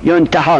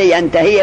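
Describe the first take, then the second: First: ینتحا pronounced "yun-ta-haa"; passive form vowels. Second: ینتحی pronounced "yan-ta-hii"; active form vowels. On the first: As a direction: begin ینتحا with "yun", finish on aa. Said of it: "که زمانی که مجهولش کنی". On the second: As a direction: begin ینتحی with "yan", finish on ii. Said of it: "مثل ینتحی معلوم". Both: Shown as a demonstration.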